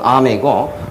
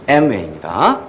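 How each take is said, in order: First: The name starts with an open 'ah' vowel. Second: The name starts with an 'eh' vowel. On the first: This is how Koreans say it. "한국 발음으로는" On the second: This is how Americans say it. "미국은"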